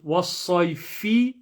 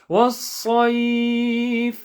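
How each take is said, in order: First: The word ends with a short i vowel. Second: The word ends on the f consonant. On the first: "the kasra will drop off" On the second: "the sukoon will come on top"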